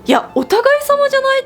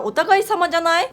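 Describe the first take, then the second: First: Indignant retort. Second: Said in the usual way. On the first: Retold or imitated. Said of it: "って思って". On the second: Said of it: "譲り合いじゃないですか".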